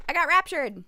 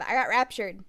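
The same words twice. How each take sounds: First: Higher, louder mock announcement; raised, punchy exclamation; mock excited cry. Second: Said in the usual way. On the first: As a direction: call it out with playful excitement. Repeats the line, escalating.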